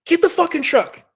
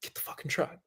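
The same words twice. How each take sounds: First: High, loud urgent yell; screaming order. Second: Very soft, half-whispered order; hushed, controlled command under the breath; quiet insistence. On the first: Injured rider screaming at his sister for the truck. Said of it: "I'm, like, screaming at my sister". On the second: Injured rider insisting to his arguing sister, very quietly. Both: Retold or imitated.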